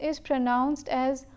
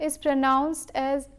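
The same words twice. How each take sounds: The two takes are said the same way.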